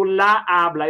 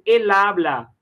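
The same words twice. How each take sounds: First: LA HABLA with two A sounds meeting; wrong article before habla. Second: EL HABLA linked smoothly as "e-labla"; correct euphonic article. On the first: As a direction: say "la habla", the vowels running awkwardly together. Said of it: "eu não digo". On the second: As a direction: say "el habla", L gliding into the stressed A. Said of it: "eu digo el habla". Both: Shown as a demonstration.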